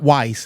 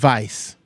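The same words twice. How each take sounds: First: The name begins with a W sound. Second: The name begins with a V sound. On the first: The speaker calls it wrong. "it's not Weiss" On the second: The speaker calls it right. "W is pronounced like a V"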